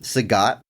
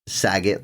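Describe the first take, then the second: First: The second syllable sounds like 'gat'. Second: The second syllable sounds like 'get'. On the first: The speaker calls it right. "it helps me pronounce a lot of these characters' names correctly" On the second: The speaker calls it wrong. "like it's Bob Saget"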